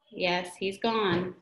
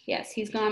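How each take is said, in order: First: Drawn-out slow reading. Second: Gently. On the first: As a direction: drag out yes, he's gone very slowly. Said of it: "Quit. Sorry". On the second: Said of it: "Mister Hornby said gently". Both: Shown as a demonstration.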